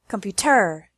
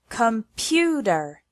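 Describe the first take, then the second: First: The stress is on the third syllable. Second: The stress is on the second syllable. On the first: The speaker calls it wrong. "If we put the stress on the first or third syllable" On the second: The speaker calls it right. "the stress is on the second one"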